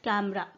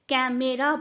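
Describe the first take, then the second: First: The middle vowel is dropped. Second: The middle vowel is fully pronounced. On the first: The speaker calls it right. "We से just कैमरा" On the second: The speaker calls it wrong. "कैमेरा बोलने की जगह"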